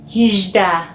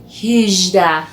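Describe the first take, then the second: Both takes have the same delivery.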